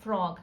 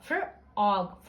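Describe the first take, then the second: First: Said in the usual way. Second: फ्रॉग slowly as "fr... og"; blended onset. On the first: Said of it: "वो single sound होगा". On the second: Shown as a demonstration. Teacher keeping F R unsplit, फ्रॉग slowly as fr-og. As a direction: hold "fr" as one sound, pause, then "og". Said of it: "एफ आर को हम split नहीं".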